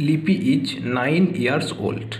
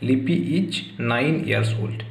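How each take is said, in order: First: Put-on "লিপি is nine years old" read very slowly, word by word; slow model answer. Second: Said in the usual way. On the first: Shown as a demonstration. Teacher dictates the model answer to students, very slow and clear. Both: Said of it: "দেখো".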